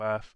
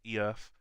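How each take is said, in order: First: The word is said in the ordinary way. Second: The word is said oddly, with a stuttered start.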